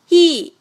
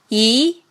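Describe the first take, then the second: First: The pitch falls sharply from high to low. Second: The pitch rises from mid to high. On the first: "四声降" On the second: "二声扬"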